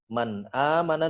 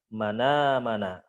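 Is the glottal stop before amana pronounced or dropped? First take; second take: pronounced; dropped. First: A glottal stop is heard before amana. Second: The glottal stop is dropped and words join.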